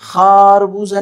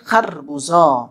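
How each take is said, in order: First: The first vowel is long. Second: The first vowel is short. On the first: The speaker calls it wrong. "खारबूजा नहीं कह सकते" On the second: The speaker calls it right. "छोटी आवाज़ वाले लफ्ज़ को छोटी आवाज़ के साथ पढ़ना है"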